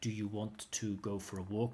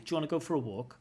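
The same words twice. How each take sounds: First: Do and you are said as separate words. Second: Do and you blend into a j sound. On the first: "instead of saying like" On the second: "We say, ... That do you becomes a j"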